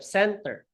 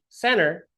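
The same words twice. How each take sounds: First: The T sound is clearly pronounced in the word. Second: The T sound is left out of the word. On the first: "instead of" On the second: "They say center"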